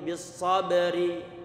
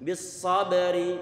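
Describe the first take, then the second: No difference in how they are said.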